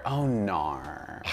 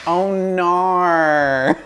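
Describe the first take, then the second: First: Australian accent. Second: High, loud Australian "Oh, nar"; Australian accent. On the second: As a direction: belt out an Aussie "nar". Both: Shown as a demonstration. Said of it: "It's my favorite word".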